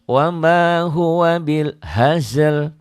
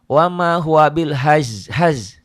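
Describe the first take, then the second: First: Both final consonants are pronounced at the end. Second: Only one of the two final consonants is pronounced. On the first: The speaker calls it right. "dua huruf matinya dua-duanya harus dibaca" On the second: The speaker calls it wrong. "Salahnya huruf matinya cuma dibaca satu. Kayak gini"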